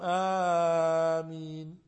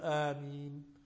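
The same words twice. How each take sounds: First: The opening vowel is stretched out long. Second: The opening vowel is held only briefly. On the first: The speaker calls it wrong. "الناس اليوم آمين. وهذا المد زائد" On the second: The speaker calls it right. "الآ هذه ليست لها أكثر من حركتين"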